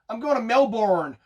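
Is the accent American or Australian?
American. An American accent with every syllable fully pronounced. "an American would try to use all the letters in the words they speak"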